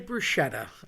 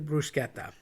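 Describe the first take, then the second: First: The middle consonant is an sh sound. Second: The middle consonant is a k sound. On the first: The speaker calls it wrong. "People say bruschetta. ... people want to make a sh" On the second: The speaker calls it right. "it's technically bruschetta. ... The C H is pronounced K"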